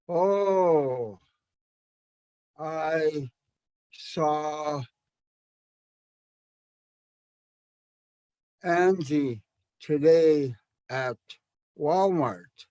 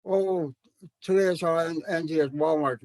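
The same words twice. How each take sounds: First: Slow, spaced-out Oh I saw Angie today at Walmart. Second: Rattled off like fluent elders; quick, flowing. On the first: Shown as a demonstration. Teacher showing slow speech at your own speed. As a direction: take your time, pausing between words. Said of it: "you could say that slow". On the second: Retold or imitated. Teacher imitating fluent elders' fast university Tanakh. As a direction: run the words together quickly. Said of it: "they would just go".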